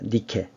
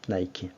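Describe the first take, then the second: First: The name sounds like nee-keh, two short syllables. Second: The name sounds like nai-kee, with a diphthong. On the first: "승리의 여신 니케입니다" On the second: "영어 발음으로는 나이키죠"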